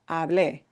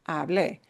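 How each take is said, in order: Both takes have the same delivery.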